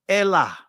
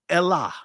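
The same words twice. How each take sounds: No difference in how they are said.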